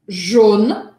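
The vowel is very closed and deliberately exaggerated. "que eu estou agora forçando até um pouco"

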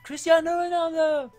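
It is said like an excited FIFA announcer.

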